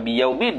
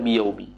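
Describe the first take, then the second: First: The word ends with an n sound. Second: The word ends on a vowel, no n. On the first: The speaker calls it wrong. "bukan baca biyaumin" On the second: The speaker calls it right. "baca biyaumi"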